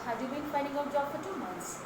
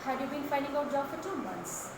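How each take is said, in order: Both takes have the same delivery.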